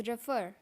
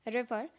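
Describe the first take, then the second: No difference in how they are said.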